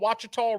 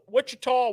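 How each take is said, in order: First: The name begins with a 'wah' sound. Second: The name begins with a 'wih' sound. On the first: The speaker calls it right. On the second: The speaker calls it wrong.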